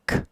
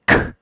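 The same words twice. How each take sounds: First: The consonant is said with normal, lighter force. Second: The consonant is punched out with strong force. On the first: "if I hit a consonant" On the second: "If I punch it"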